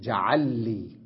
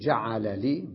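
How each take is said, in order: First: The two l sounds merge into one doubled l. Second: The two l sounds are pronounced separately. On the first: "ويمكن أقول جعل لي" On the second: "فأقول جعل لي بالفك"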